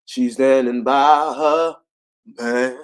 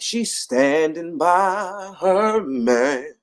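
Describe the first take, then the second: First: "her" louder, slow; stress on her. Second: "her" drawn out, very slow; slow and sing-song on "her"; stress on her. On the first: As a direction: punch "her" in "She's standing by her man". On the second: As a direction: lean on "her" in "she's standing by her man". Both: Shown as a demonstration.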